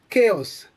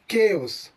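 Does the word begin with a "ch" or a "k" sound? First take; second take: k; k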